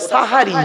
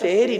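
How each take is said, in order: First: The first vowel sounds like 'a'. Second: The first vowel sounds like 'e'. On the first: The speaker calls it right. "ওটা সাহারি।" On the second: The speaker calls it wrong. "ওটা সেহরি নয় গো বাবা"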